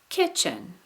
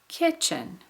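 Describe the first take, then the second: The two takes are said the same way.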